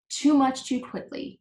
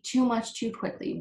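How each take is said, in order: First: Higher wheezy gasp between gulps; wheezing. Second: Fading wheeze. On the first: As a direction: wheeze it out, gulping air. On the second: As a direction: let the wheeze die down. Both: Acted. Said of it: "wheezed the uncomfortable Bud between gulps".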